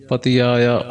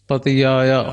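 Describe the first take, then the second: The two takes are said the same way.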